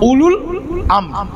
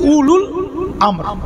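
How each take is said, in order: First: The first word has a u vowel: ulul. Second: The same.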